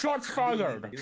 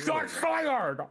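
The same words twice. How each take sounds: First: Higher, hammed-up radio call; mock cop callout. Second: Bigger mock callout. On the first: Joking to the police squad, a mock cop callout. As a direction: bark it like a play cop. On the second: Joking to the police squad, a bigger mock cop yell. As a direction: push it up into a panicky mock alarm. Repeats callout, higher still.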